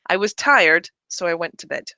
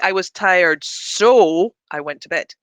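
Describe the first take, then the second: First: The word so is soft and unstressed. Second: The word so is strongly stressed. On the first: The speaker calls it right. "It's much softer" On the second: The speaker calls it wrong. "We don't stress it like we did when it's functioning as a modifier. I don't say"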